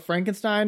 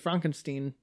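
First: It is said with a common English pronunciation. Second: It is said with a German pronunciation. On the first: The speaker calls it wrong. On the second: The speaker calls it right.

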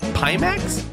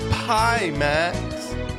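First: The first vowel is short, like 'pih'. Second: The first vowel is long, like 'pie'. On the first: "Is that how I would say it?" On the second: "like offering pie"

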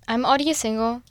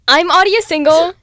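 First: It is said in a plain, flat way. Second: It is said with more enthusiasm.

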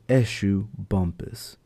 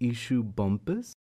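First: The first name begins with an 'eh' sound. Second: The first name begins with an 'ee' sound. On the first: The speaker calls it right. "The proper pronunciation is Eshu Bumpus" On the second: The speaker calls it wrong. "That is a mispronunciation on my own part"

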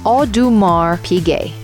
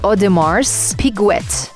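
First: The S and the final T are silent. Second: The S and the final T are pronounced. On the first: The speaker calls it right. "the way you pronounce it is Audemars Piguet, without pronouncing the S and without pronouncing the T in the end" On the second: The speaker calls it wrong. "It's written as Audemars Piguet"

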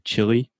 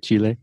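First: Chile is said the English way, like chilly. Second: Chile is said the Spanish way, chee-leh.

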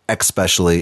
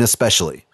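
First: The word begins with an x sound. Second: The word begins with an s sound. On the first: The speaker calls it wrong. "So stop saying especially" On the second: The speaker calls it right. "There is no X in especially"

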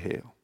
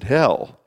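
First: The vowel is a long 'ay' sound. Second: The vowel is a short 'eh' sound. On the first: This is how the local speakers say it. "the way we would say hail" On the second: This is how a speaker from another region says it. "He pronounced it hell"

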